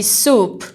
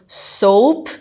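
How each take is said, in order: First: "soup" with a pure OO vowel; long OO sound. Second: "soap" with a gliding OH vowel; long O sound. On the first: Teacher contrasting it with sabão, "soup" with an OO vowel. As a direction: say "soup" clearly, vowel as in "food". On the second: Teacher showing students a confusable word, "soap" with an OH vowel. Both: Shown as a demonstration. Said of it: "mesma questão lá do soap".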